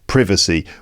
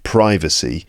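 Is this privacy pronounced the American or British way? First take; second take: British; American. First: It is said with a British pronunciation. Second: It is said with an American pronunciation. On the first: "in British English, ... we pronounce it privacy" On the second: "in American English it would be pronounced privacy"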